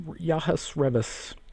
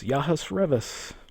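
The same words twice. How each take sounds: The two takes are said the same way.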